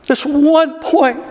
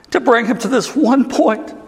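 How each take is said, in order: First: "one" held high and slow, the whole phrase drawn out; stress on one. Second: Said in the usual way. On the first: Acted. Preacher driving home the moment to his congregation, stressing "one". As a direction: lean hard on "one" and slow right down.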